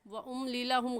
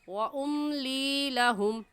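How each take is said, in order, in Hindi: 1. 'li' में स्वर छोटा है। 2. 'li' में स्वर लंबा खींचा हुआ है। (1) "गलत है" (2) "सही है व उम्ली लहुम। लाम या से ली को एक अलिफ के बराबर खींचेंगे।"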